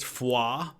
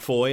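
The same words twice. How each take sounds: First: It is said the way locals in Belgium say it. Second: It is said as English reads the spelling. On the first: This is how the people there say it. The speaker calls it right. "That's how they pronounce it there in Belgium" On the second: This is what the soldiers called it from its spelling. The speaker calls it wrong. "it's not Foy"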